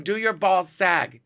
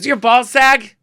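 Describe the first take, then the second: First: Slow, insistent repeated question; high, drawn-out mimicked demand; Joan Rivers. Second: Loud, high mimicked question; imitated shouted nosy question; Joan Rivers. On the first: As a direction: spell it out slowly as the impatient comedian. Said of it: "I asked you a question". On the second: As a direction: blurt it brashly as the comedian. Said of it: "this unmistakable voice".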